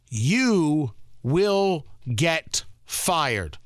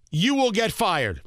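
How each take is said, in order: First: Each word slow and heavy, "You" hit hardest; very slow, grave stress on "You will get fired"; slow emphatic warning. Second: Said in the usual way. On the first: Real, not acted.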